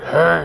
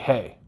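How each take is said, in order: First: It is said in a deep, terrifying voice. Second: It is said in a normal voice.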